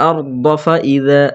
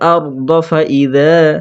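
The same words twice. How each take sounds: Both takes have the same delivery.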